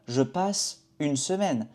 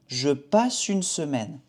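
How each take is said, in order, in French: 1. Il y a une pause après passe. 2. Passe enchaîne directement sur une, sans pause. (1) "On ne dit pas" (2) "on connecte passe et une semaine. On ne fait pas une pause"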